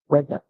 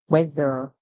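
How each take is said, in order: First: The final R is dropped to a short schwa. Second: The final R is clearly pronounced. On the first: "in the British English, you hear weather, weather. So it's more or less like it's cut short" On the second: "in the American um, English, the E R would be pronounced like, you know, it has a roll"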